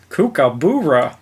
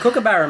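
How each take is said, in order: First: The second syllable has a long oo vowel. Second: The second syllable has a short u vowel. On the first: The speaker calls it wrong. "trying to put a double O instead of a U" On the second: The speaker calls it right. "It's fucking kookaburra, mate"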